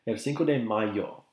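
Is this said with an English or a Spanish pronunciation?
Spanish. It is said with a Spanish-sounding pronunciation. The speaker calls it right.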